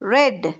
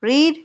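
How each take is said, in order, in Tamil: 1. உயிர் ஒலி குறுகியது, red போல. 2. உயிர் ஒலி நீண்டது, reed போல.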